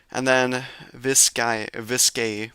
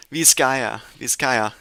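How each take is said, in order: First: "Vizcaya" said as "viss-KAY"; "Vizcaya" with the ending dropped; butchered pronunciation. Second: "Vizcaya" said as "vees-KAI-ya"; "Vizcaya" with a clear ya at the end; corrected pronunciation. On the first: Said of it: "I probably butchered that". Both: Real, not acted.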